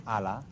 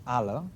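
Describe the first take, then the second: First: "ala" with both vowels a full open a; Spanish pronunciation. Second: "ala" with the second vowel reduced to schwa; Catalan pronunciation. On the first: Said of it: "in Spanish surfaces as ala". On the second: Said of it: "in Catalan surfaces as ala". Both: Shown as a demonstration.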